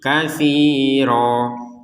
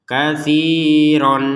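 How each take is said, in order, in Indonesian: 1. Kata ini berakhir dengan vokal panjang. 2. Kata ini berakhir dengan bunyi n. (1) "Kalau dibaca waqaf berhenti" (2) "kalau dibaca secara tulisannya"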